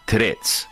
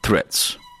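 First: The word begins with a plain T sound. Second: The word begins with a TH-like sound. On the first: "کلن بیخیال تی ات شدن به جاش تی میذارن" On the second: "اگه نه که میشی مثل من"

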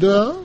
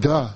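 First: It is said as a polite, reluctant near-refusal. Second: It is said as plain, full agreement. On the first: The speaker politely means no. "это будет почти «нет», только вежливое" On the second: The speaker fully agrees. "это будет полное согласие"

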